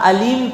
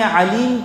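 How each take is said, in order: First: It begins with a plain open vowel sound. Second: It begins with a tight throaty consonant sound. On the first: Painful. The speaker calls it wrong. "Alif से अगर अलीम पढ़ेंगे तो दर्दनाक" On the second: All-knowing. The speaker calls it right. "अलीम आइन से पढ़ेंगे तो जानने वाला"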